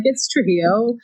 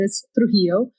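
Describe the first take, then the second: First: "Trujillo" with its proper Spanish sound and emphasis; correct Spanish surname. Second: "Trujillo" the English speaker's way, emphasis misplaced; Americanized surname. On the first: Guest showing how she says her own surname, correctly pronounced. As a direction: say "Trujillo" as a Spanish speaker would. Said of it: "they put the wrong emphasis on the wrong syllable". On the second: Guest echoing how the host says her surname, Americanized. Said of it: "but, like, when you say it". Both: Shown as a demonstration.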